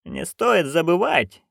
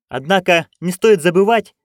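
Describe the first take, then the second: First: Curt interruption. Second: Louder, higher insistence; insist, louder and higher; emphatic. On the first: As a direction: cut in slowly and coolly. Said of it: "перебила её матушка". (резко перебивая, медленно и тише) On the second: Magrat raises objection. (настойчиво, громче и выше) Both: Acted.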